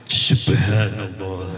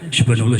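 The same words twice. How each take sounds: First: It is said slowly and calmly. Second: It is said fast and hurried.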